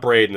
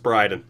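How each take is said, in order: First: The first vowel sounds like 'ay' in day. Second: The first vowel sounds like 'eye' in fly. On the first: The speaker calls it wrong. "Your name's not Braden" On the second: The speaker calls it right. "it's Bryden"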